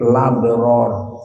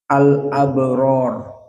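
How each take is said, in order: First: The glottal stop is dropped, vowel moves to l. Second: The glottal stop is kept before the vowel.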